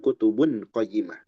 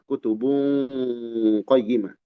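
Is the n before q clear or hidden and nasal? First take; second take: clear; hidden nasal. First: The n before q is pronounced clearly. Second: The n before q is hidden and nasalized. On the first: The speaker calls it wrong. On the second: The speaker calls it right. "Dibaca samar. Dan ada dengungnya"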